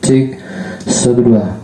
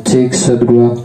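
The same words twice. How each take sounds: First: Said in the usual way. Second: Mic check with echo; counting through an echoing mic. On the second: Shown as a demonstration. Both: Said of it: "Kemudian kita coba echo-nya".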